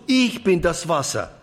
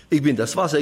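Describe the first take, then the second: First: „ich“ hoch angesetzt und betont, dann fallend; Betonung auf ich. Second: „Wasser“ betont, „Ich bin“ beiläufig davor; Betonung auf Wasser. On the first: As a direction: setz den Nachdruck auf „ich“. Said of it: "dann liegt die Betonung immer auf ich". (hoher Akzent auf „ich“, danach abfallend) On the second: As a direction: leg das Gewicht auf „Wasser“. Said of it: "macht man die Betonung auf das Wasser". (Betonung liegt auf „Wasser“, nicht auf „Ich“) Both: Shown as a demonstration.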